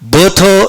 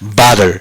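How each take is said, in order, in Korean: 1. 영국식 억양으로 발음됩니다. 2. 미국식 억양으로 발음됩니다. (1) "butter 이렇게 발음하면 영국식" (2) "미국식이라면 거의 바에 가까워서 butter"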